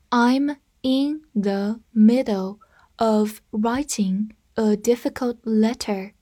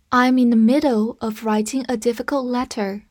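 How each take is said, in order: First: Unhurried, careful model reading; slow reading. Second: Said in the usual way. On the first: Shown as a demonstration. Teacher reading the sentence slowly to the class. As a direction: read it out slowly, word by word. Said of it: "slow reading for students". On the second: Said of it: "normal-speed reading after slow".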